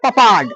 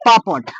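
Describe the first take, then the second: First: It is said the way the spelling suggests. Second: It is said with the usual pronunciation. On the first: The speaker calls it wrong. "English के हिसाब से पपाड़, इसको पपाड़ नहीं पढ़ना है" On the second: The speaker calls it right. "इसको पापड़ पापड़ बोला जाता है"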